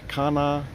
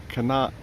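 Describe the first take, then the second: No difference in how they are said.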